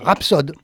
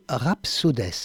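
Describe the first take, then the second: First: The word ends without an S sound. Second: The final S sound is pronounced. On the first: The speaker calls it right. "on prononce pas le S ?" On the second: The speaker calls it wrong. "on prononce pas le S ?"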